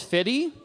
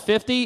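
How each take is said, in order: First: The middle 'f' sound is dropped. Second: The middle 'f' sound is pronounced.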